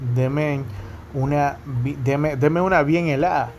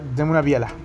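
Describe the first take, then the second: First: Every syllable of bien helada is pronounced fully. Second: Bien helada is squeezed into one short word. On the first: "antes pedían deme una bien helada" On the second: "como acostumbramos a hablar rápido y nos comemos ciertas letras finales"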